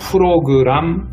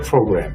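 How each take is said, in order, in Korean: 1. 북한식 발음으로 말합니다. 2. 남한식 발음으로 말합니다. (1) "근데 이북 사람들은" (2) "우리 대한민국에서는 프로그램이라고 발음을 하죠"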